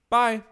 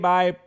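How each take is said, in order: First: It sounds natural and relaxed. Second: It sounds flat and low in energy.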